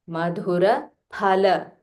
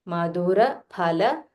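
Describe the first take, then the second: No difference in how they are said.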